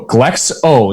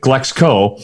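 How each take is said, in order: First: It ends with a plain o, no k sound. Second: It has a k sound before the final o. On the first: The speaker calls it right. "there's no C at the end of it" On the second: The speaker calls it wrong. "everybody calls it Glexco"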